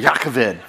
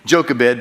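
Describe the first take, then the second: First: It begins with a Y sound and a throaty middle. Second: It begins with a J sound and a plain middle. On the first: "You have to get a little bit of hawking in there" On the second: "Jochebed is the way you might see it on the scripture pages"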